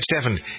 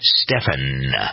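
First: The last syllable is rushed and swallowed. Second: Both syllables are said clearly and fully. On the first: The speaker calls it wrong. "It's like I'm throwing away the last syllable in my name" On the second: The speaker calls it right. "Two syllables"

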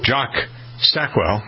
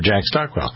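First: The first name has the vowel of 'jock'. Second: The first name has the vowel of 'jack'. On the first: The speaker calls it wrong. "but that probably doesn't sound right" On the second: The speaker calls it right. "Makes much more sense"

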